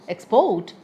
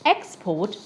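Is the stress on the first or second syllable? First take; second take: second; first. First: The stress is on the second syllable. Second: The stress is on the first syllable.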